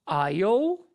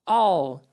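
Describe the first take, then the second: First: It is said in a fuller, slower form. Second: It is said in a shorter, reduced form. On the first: "primeira possibilidade" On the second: "para deixar a nossa fala mais rápida"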